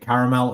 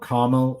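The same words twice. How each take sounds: First: It is said in the speaker's usual pronunciation. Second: It is said in the listeners' pronunciation.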